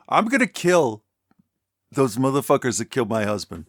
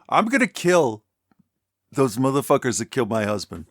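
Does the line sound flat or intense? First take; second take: intense; intense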